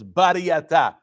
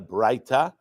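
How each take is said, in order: First: The word is said the Sephardic way. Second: The word is said the common non-Sephardic way. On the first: The speaker calls it right. "Sfaradim, we pronounce it as bariyata" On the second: The speaker calls it wrong. "it's not a braita"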